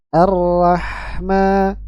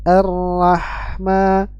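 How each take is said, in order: No difference in how they are said.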